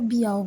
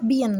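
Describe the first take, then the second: First: "বিয়াও" with an open vowel ending; n left unpronounced. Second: "বিয়ান" closing on an n; pronunciation with n. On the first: Teacher showing how some people say it, "বিয়াও" without n. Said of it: "এন উচ্চারণ করে না". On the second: Teacher giving learners the standard form, "বিয়ান" with final n. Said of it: "এইটার উচ্চারণ হচ্ছে". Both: Shown as a demonstration.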